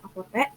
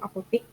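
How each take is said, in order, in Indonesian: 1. Suku kata terakhir diucapkan dengan vokal e. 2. Suku kata terakhir diucapkan dengan vokal i. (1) "padahal yang seharusnya itu apotek" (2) "kata tidak bakunya itu apotik"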